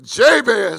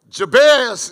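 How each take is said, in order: First: The name has a casual country-style pronunciation. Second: The name has its formal standard pronunciation. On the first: This is the form the speaker prefers. "but Jabez sounds better" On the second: This is the correct form of the name. "Jabez is proper"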